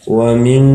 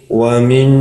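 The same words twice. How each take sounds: Both takes have the same delivery.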